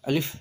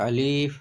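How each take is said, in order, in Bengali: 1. স্বরধ্বনিটি ছোট রাখা হয়। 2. স্বরধ্বনিটি টেনে দীর্ঘ করে পড়া হয়। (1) "শর্ট করে পড়তে হবে" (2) "কেউ যদি পড়ে আলিফ তাহলে ভুল হবে"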